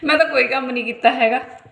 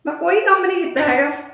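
First: Said in the usual way. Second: ਕੰਮ stressed, line pitched higher and louder; emphatic confession. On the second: Real, not acted. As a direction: push ਕੰਮ up high for a cheeky admission.

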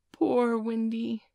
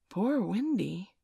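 First: Slow, higher, pitying sigh; drawn out in tender pity; awed boy pities the weary bird. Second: Puzzled echo. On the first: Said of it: "Nibs said, awestruck". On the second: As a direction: wonder aloud, unsure what it means. Puzzled boys repeat the name. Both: A narrator's reading.

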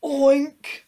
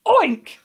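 First: High, loud single oink; short pig-noise word. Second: Very loud, high burst; explosive high pig-noise yell; shouted oink. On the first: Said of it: "The pig looked at him". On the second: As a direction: fire it out to startle a bird. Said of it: "he shouted". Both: A narrator's reading.

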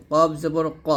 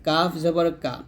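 First: Heavy Q with a rounded vowel in ক; thick qof. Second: Light K with an open A in কা; thin kaf. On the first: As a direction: say ক thick, as qo rather than ka. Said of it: "অবশ্যই মোটা করতে হবে". (কফ মোটা উচ্চারণে) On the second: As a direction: say কা thin, as ka rather than qo. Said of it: "আর কাফটা পাতলা হবে এরকম". (কাফ পাতলা উচ্চারণে) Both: Shown as a demonstration.

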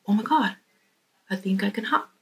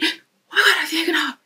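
First: Hushed, disbelieving discovery, spoken softly; half to himself, barely daring to believe; quiet amazement. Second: High, thrilled realisation; excited discovery. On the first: He pressed on it and goes. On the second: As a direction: burst out with sudden joy. Frog realises he can hop. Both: Acted.

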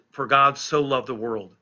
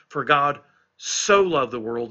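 First: Said in the usual way. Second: Slow the verse and lean hard on "so"; stress on SO. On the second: Shown as a demonstration. Preacher showing listeners that word is emphatic, heavy stress on "so". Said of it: "that word "so" is emphatic there".

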